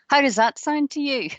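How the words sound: It is said loudly and aggressively. "That might have woken some of you up there. Could be quite aggressive"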